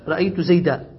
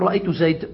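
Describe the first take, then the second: First: The phrase ends on a long a vowel. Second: The phrase ends on a bare d consonant. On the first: This is the usual pausal form in most dialects. "تقف عليه بالألف تقول رأيت زيدا" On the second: "أما ربيعة فيقول رأيت زيد"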